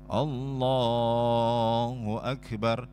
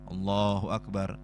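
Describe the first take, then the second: First: The phrase is drawn out with lengthened vowels. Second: The phrase is said quickly with short vowels. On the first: It matches a long movement in prayer. "takbirnya ikut mengikuti lama gerakannya" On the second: It matches a short movement in prayer. "takbirnya singkat karena pendek gerakannya"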